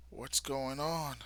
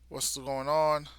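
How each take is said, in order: First: Said in the usual way. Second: Louder, higher startled question; surprised. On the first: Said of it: "and then it's like". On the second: Retold or imitated. Yuru arriving at the scene, louder surprised question. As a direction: blurt it out in surprise.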